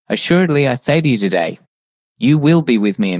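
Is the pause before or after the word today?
after. The pause comes after the word today.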